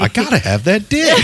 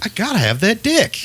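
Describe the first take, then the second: First: Mock ringtone voice. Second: Mock quote. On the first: Ringtone heard from the stall. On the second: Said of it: "he was like".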